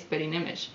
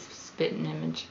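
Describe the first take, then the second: First: It is said with a non-Southern pronunciation. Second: It is said with a Southern pronunciation. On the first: This is the speaker's own everyday way. "I say spitting image" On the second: This is how a Southerner would say it. "it just makes sense for a Southerner to say"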